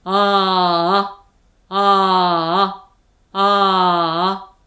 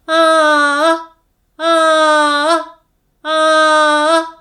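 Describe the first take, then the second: First: A lower, slow, sustained ah. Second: High ah. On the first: Teacher demonstrates the low-voice exercise, low and slow. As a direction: drop the pitch and hold each ah long. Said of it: "まずは低い声で". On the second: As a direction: lift the pitch and hold each ah long. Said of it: "今度は高い声で". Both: Shown as a demonstration.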